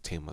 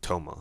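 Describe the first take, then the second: First: The first vowel sounds like 'ah'. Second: The first vowel sounds like 'oh'. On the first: This is the usual local pronunciation. The speaker calls it right. "I think it's Tama though" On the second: Someone else said it this way. The speaker calls it wrong. "I knew someone who pronounced it Toma"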